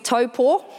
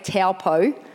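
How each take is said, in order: First: The name is pronounced with Māori vowels. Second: The name is pronounced with anglicized vowels. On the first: The speaker calls it right. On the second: The speaker calls it wrong.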